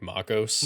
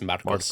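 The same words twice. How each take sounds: First: The R sounds like an American English R. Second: The R is pronounced the Spanish way. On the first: The speaker calls it wrong. "Brady doesn't pronounce like the the A R in my name. He says it like" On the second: The speaker calls it right. "say it correctly like my parents name me. It's"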